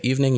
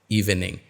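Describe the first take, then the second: First: One syllable is dropped from the word. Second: Every syllable is pronounced fully. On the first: The speaker calls it right. "you must drop the syllable" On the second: The speaker calls it wrong. "would sound weird if you said"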